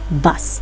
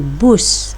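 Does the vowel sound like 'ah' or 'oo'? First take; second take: ah; oo. First: The vowel sounds like a short ah. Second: The vowel sounds like the oo in food. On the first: The speaker calls it right. "sepatutnya dibaca secara bunyi huruf" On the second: The speaker calls it wrong. "dia jadi bus dan bukan jadi bas"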